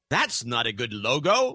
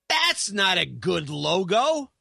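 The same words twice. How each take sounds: First: It is said in a plain voice. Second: It is said in a cranky voice.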